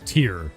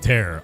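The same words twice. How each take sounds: First: The word rhymes with 'here'. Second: The word rhymes with 'hair'. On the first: It means a drop from crying. The speaker calls it right. "Its name references the Castlevania song Bloody Tears" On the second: It means to rip apart. The speaker calls it wrong. "instead of"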